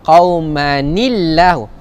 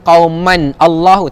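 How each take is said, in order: First: An added 'ni' syllable links the words. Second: The words join with no added 'ni' syllable. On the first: The speaker calls it right. "cara bacaan dia" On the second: The speaker calls it wrong. "Jangan baca"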